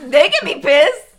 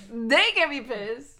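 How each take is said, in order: First: Loud laughing defiance. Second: Said in the usual way. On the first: Real, not acted.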